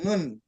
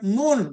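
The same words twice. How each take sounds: First: The sound is said with relaxed, unrounded lips. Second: The sound is said with rounded, pushed-out lips. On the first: The speaker calls it right. "tapi nun" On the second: The speaker calls it wrong. "bukan nun, bukan"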